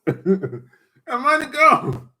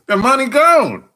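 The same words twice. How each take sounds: First: Slow, drawn out through laughter; cracking up over the lost money; laughing. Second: Said in the usual way. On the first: Real, not acted. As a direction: laugh the words out slowly. Repeats line, laughing the second time.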